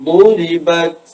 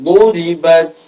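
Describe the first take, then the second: Both takes have the same delivery.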